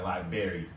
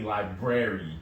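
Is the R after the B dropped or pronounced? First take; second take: dropped; pronounced. First: The R after the B is dropped. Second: The R after the B is pronounced. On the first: This is the casual slang way of saying it. The speaker calls it wrong. "we leave the B out, the uh, not the B, the R out after that B" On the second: This is the proper way of saying it. The speaker calls it right. "And then it's really library"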